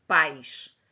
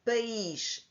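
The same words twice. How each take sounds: First: "pais" as a single syllable, a-i gliding together; one syllable. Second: "País" split as pa-ÍS; two syllables. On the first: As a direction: say "pais" with the i joined to the a. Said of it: "só tem uma sílaba". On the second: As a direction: say "País" slowly, stressing a separate i. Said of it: "é dividido da primeira sílaba". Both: Shown as a demonstration.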